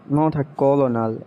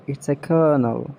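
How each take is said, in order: First: Colonel as kol-oh-nel; wrong pronunciation. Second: Colonel as kernel; right pronunciation. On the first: Mocking the spelt-out colonel. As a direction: say colonel as spelt, three syllables. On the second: Teaching a friend that colonel sounds like kernel. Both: Shown as a demonstration. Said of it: "the right pronunciation".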